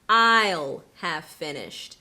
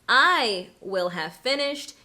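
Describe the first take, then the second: First: Will is contracted onto I. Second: Will is said as a full separate word. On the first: "you might hear" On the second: "instead of saying"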